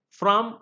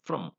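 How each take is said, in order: First: FROM with a full, open vowel; strong form. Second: FROM reduced to "frum"; weak form. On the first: Teacher listing preposition forms, strong form. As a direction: say FROM as a stressed full word. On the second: Teacher listing preposition forms, weak form. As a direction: say FROM with a short neutral vowel. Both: Shown as a demonstration. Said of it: "it has a weaker form".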